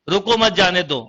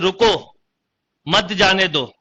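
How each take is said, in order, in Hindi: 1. विराम दूसरे शब्द के ठीक बाद आता है। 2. विराम पहले शब्द के ठीक बाद आता है। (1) "उसको रोको मत जाने दो" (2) "उसको रोकना है, उसको मत जाने दो"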